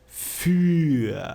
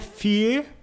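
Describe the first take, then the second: First: The vowel is said with rounded lips. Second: The vowel is an unrounded i sound. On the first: The speaker calls it right. "Faz um biquinho aí" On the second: The speaker calls it wrong. "Não é fear. Tem um pessoal acha que o U com os dois pontinhos tem som de I"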